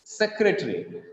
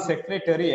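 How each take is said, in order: First: "secretary" as sec-re-tree; correct three-syllable pronunciation. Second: "secretary" as sec-re-ta-ry, four syllables; spelling-based pronunciation. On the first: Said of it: "It is". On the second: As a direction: sound the "a" in "secretary", as written. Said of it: "It is not secretary, actually". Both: Shown as a demonstration.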